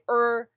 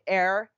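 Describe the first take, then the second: First: The word rhymes with 'her'. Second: The word rhymes with 'hair'. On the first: "some people say er" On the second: "some people say air"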